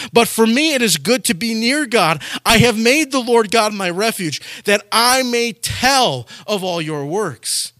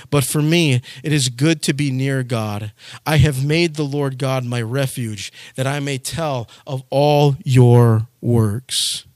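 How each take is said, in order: First: Verse quoted higher in preaching voice; preached quotation. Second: Solemn scripture reading. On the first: Pastor proclaiming the verse to his flock, higher fervent preaching. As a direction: proclaim the verse, slowing at the end. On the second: Pastor reading the closing verse to his flock, slow solemn reading. Psalm verse read in lectern voice. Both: Acted.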